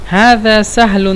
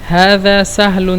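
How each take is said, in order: No difference in how they are said.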